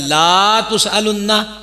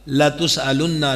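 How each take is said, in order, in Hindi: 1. पहला स्वर लंबा खिंचा हुआ है। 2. पहला स्वर छोटा है। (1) "अगर ये पढ़ दिया ला तुसअलुन्ना तो माना ही बदल गया" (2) "लाम पर जबर है"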